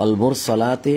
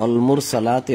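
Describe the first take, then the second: The two takes are said the same way.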